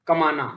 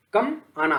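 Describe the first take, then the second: First: कमाना run together as one word; no break inside कमाना; joined juncture. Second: Brief break between कम and आना; "कम आना" as two separate words; open juncture. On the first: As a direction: say कमाना in one smooth piece. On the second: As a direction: say कम, pause, then आना. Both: Shown as a demonstration. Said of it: "जो संगम हो रहा है".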